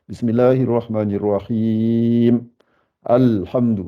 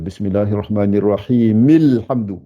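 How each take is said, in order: First: The two phrases are separated by a pause. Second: The two phrases run together without a pause. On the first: The reciter stops after the first verse. "Mais si je m'arrête" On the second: The recitation continues without stopping between verses. "si je m'arrête pas, euh, ça change"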